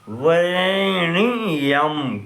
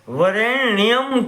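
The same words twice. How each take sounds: First: The ending is split as ni-yam, adding a syllable. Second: The ending nyam is said as one syllable. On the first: "वरेण्यम करके उच्चारण किया जाए" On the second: "वरेण्यम को"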